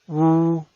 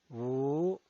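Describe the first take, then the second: First: The pitch stays high and level. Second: The pitch rises from mid to high. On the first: "El primer tono es alto y sostenido" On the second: "El segundo tono es ascendiente"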